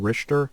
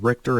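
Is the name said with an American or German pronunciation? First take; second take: German; American. First: The name is said with a German pronunciation. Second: The name is said with an American pronunciation. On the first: "German pronunciation" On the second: "the American pronunciation"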